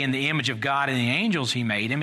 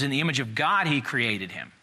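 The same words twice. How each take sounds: First: "angels" lifted as the rejected wording; stress on ANGELS. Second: "God" lifted, then a falling finish; stress on GOD. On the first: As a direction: punch "angels" with a rising contrast. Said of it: "it doesn't say". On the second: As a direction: punch "God" as the correct wording. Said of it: "It says". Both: Shown as a demonstration.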